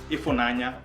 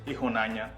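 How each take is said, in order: First: The consonant after the first vowel is F. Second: The consonant after the first vowel is H. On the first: "instead of an F sound" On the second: "it's an H sound"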